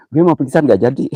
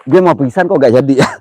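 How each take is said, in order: First: Laughing. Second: Said in the usual way. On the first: Real, not acted. Laughing at himself.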